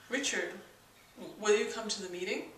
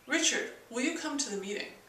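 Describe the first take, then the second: First: The pitch stays level throughout. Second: The pitch falls at the end. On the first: It assumes the answer already. "the flat tone, which is sort of an assumption. And there's no inflection in that at all" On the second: It gives an order. "a command tone, which goes down at the end"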